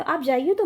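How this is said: It is said with a questioning tune.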